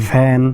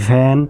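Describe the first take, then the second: No difference in how they are said.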